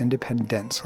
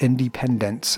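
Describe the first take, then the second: First: Said in the usual way. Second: "Independence" said as independents, ending hard on -ts; "Independence" with a crisp final "dents". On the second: Shown as a demonstration. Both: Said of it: "D E N T S".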